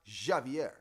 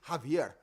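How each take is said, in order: First: The name begins without an H sound. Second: The name begins with an H sound. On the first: The speaker calls it wrong. "not Javier" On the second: The speaker calls it right. "Javier is a H. Like you hear me say Javier"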